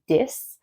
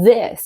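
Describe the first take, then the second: First: The word begins with a hard d sound. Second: The word begins with a soft th sound. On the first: The speaker calls it wrong. "you say dis" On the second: The speaker calls it right. "instead of saying this"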